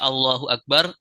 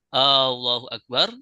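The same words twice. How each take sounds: First: The opening vowel of Allahu is short. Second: The opening vowel of Allahu is drawn out long. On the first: A statement that God is the greatest. The speaker calls it right. "yang harusnya Allahu Akbar" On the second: A question asking whether God is the greatest. The speaker calls it wrong. "ketika ditambah panjang"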